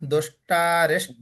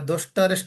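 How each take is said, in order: First: The vowel after 'dusht' is long. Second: The vowel after 'dusht' is short. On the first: The speaker calls it right. "दुष्ट आकार होगा" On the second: The speaker calls it wrong. "दुष्टरिष्ट लिखा है"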